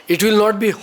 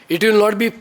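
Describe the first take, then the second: The two takes are said the same way.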